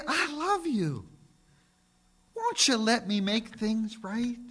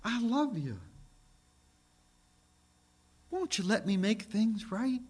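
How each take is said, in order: First: God's tender voice. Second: Gentle plea. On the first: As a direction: plead gently as God calling. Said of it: "He'd say". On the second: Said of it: "It would be something like this". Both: Acted.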